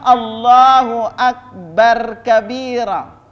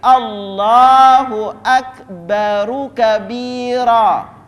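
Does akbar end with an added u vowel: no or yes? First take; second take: no; yes. First: Akbar ends on a bare r sound. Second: Akbar ends with an added u vowel. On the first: The speaker calls it wrong. "tidak boleh mengatakan" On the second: The speaker calls it right.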